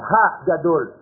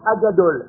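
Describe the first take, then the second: First: It starts with a clearly breathed h sound. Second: It starts with a plain vowel, no h sound. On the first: The speaker calls it right. "Il faut prononcer le hé" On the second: The speaker calls it wrong. "Avec un A. Non"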